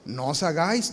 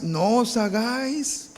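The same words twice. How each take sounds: First: Said in the usual way. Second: Slow "no os hagáis", os pressed; slow and emphatic "no os hagáis"; stress on os. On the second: Shown as a demonstration. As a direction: drag out the warning, leaning on "os".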